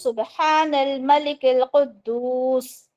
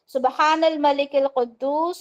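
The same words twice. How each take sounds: First: It is drawn out long and louder. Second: It is said at normal length.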